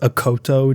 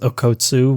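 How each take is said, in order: First: The name ends with a 'to' sound. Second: The name ends with a 'tsu' sound. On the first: The speaker calls it right. "that's Okkoto, not Okkotsu" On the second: The speaker calls it wrong. "I had pronounced Okoto's name completely wrong. I was pronouncing it as Okkotsu"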